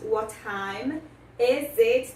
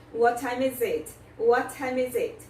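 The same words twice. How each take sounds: First: "What time is it?" said very slowly with the two T's of "What time" run together; linked Ts. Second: Normal speed model. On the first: Teacher slowly shows students how to link "What time" in "What time is it?". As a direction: slowly join "What" and "time" into one T sound. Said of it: "juntamos a pronúncia dos dois T's". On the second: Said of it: "Também juntamos a pronúncia". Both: Shown as a demonstration.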